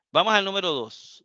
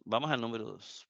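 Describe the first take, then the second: First: Said in the usual way. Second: Softer, fast muttered repeat of "vamos al número dos"; quick quiet repeat. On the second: Shown as a demonstration. Teacher repeats the announcement to the class, softer and quick. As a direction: toss off "vamos al número dos" softly and quickly, half to yourself.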